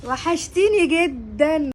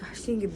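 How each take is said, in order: First: Loud, long drawn-out gushing greeting; effusive greeting. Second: Said in the usual way. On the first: Acted. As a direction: stretch it out with delight at seeing your friend. Effusive greeting of a missed friend. (ترحيب حار بصوت عالي وممطوط)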